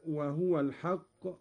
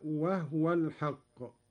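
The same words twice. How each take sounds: First: Said in the usual way. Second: "وهو" said wahwa, with no vowel on the haa; silent haa. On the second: Shown as a demonstration. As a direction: recite "وهو" slowly as wah-wa. (تسكين الهاء في "وهو") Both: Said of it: "قرأ قالون بإسكان الهاء".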